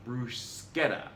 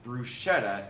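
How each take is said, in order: First: Bruschetta with a hard sk, slowly; hard SK pronunciation. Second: Bruschetta with a soft sh in the middle; soft SH pronunciation. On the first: Reader gives the Italian way, slow hard-sk bruschetta. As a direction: say bruschetta as broo-SKET-a, drawn out. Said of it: "pronounced like the English S K". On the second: Reader shows how not to say it, soft-sh bruschetta. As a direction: say bruschetta as broo-SHET-a. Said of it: "Thus, it's not bruschetta". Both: Shown as a demonstration.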